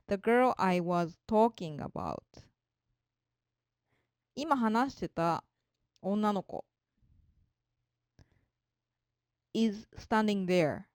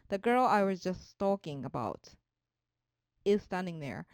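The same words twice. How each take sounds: First: Slow, with a long break after about before is standing there; slow teaching read with a marked pause between about and is; slow pause demo. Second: One smooth read, a brief natural pause between about and is; natural read, short pause after about; natural phrasing. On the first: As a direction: read it phrase by phrase, slowly, and hold a clear gap before is. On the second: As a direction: read it through at a natural pace, with only a short break after about before is. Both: Shown as a demonstration. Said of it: "aboutとisの間に区切りが生じます".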